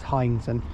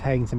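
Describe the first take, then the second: First: The first syllable sounds like 'high'. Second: The first syllable sounds like 'hay'. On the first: The speaker calls it right. "but it's Hyington" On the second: The speaker calls it wrong. "we thought it was Hayington"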